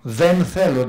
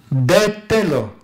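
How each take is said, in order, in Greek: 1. Το ρήμα αρχίζει με ήχο θ. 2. Το ρήμα αρχίζει με απλό ήχο τ.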